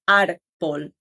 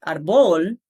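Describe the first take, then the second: First: "árbol" as AR-bol; stress on first syllable. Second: "árbol" as ar-BOL, second syllable punched; wrong syllable stress. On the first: Teacher shows Spanish accent mark, "árbol" stressed on AR. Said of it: "I see an accent mark". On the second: Teacher shows wrong stress, "árbol" as ar-BOL. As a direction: push the stress to the end of "árbol". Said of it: "I don't say árbol". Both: Shown as a demonstration.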